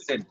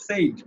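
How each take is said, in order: First: Said said short and crisp as "sed"; correct said. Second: Said said as "sed" with a long drawn vowel; wrong said. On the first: Teacher giving the right said, short. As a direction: clip said short, no stretched vowel. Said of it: "said এর উচ্চারণটা হলো এটা". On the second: Teacher showing the common wrong said, drawn out. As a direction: stretch the vowel in said like a long Arabic alif. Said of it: "এভাবে উচ্চারণ করি". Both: Shown as a demonstration.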